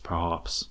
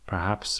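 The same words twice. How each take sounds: First: It is said in a mock-Tasmanian accent. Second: It is said in the speaker's usual accent.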